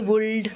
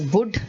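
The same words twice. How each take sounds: First: The L in the word is pronounced. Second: The L in the word is silent. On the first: The speaker calls it wrong. "this is a mistake which all of us make" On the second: The speaker calls it right. "but it is would"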